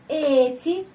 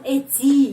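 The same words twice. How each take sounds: First: The stress is on the first syllable. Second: The stress is on the second syllable. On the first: The speaker calls it right. "tetapi huruf e ini yang pertama" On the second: The speaker calls it wrong. "bukan kesini penekanan intonasi"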